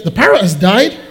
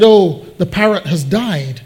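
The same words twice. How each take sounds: First: Rising, incredulous echo; disbelieving question. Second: Understated glum announcement. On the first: News of the dead parrot echoed back, disbelieving. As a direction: repeat the news as a startled question. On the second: Customer breaks the news to shop manager, mildly glum. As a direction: let it fall, a touch downcast. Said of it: "looking a bit glum". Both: Acted.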